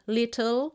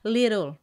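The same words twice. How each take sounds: First: The T is pronounced the British way. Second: The T is pronounced the American way. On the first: "si tu prononces les T à l'anglaise" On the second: "à l'américaine"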